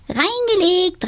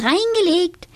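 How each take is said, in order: First: Very high, triumphant witch cry; gleeful call. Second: Very high, triumphant repeat; gleeful call. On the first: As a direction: crow with glee. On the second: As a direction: crow it again with glee. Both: A narrator's reading. Donatella fooling Tobias, gleeful very high cry. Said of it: "und rief".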